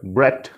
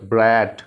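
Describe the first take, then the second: First: ब्रैट with a short vowel, like "bret"; short ब्रैट, rising at the end; quick vowel. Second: ब्रैट with a long vowel; ब्रैट held long, falling at the end; stretched vowel. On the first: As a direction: say ब्रैट briefly. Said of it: "pronunciation थोड़ी fast and quick है". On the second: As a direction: draw out ब्रैट, like "brat". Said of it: "इसको भी stretch किया ना". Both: Shown as a demonstration.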